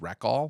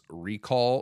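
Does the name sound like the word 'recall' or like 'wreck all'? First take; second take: wreck all; recall. First: It sounds like the two words 'wreck all'. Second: It sounds like the ordinary word 'recall'. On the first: "like wreck all the things" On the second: "my brain wants to call this Recall seventy-six"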